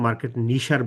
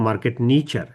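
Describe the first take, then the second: First: The word has an 'sh' sound in the middle. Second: The word has a 'ch' sound in the middle. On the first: The speaker calls it wrong. "মার্কেট নিশার বলবো না" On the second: The speaker calls it right. "তখন বলবো market নিচার"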